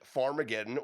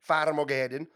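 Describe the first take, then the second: First: It is said in an ordinary American accent. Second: It is said in a put-on Irish accent.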